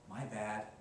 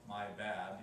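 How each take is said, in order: First: It is said with strong feeling. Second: It is said flatly, without feeling.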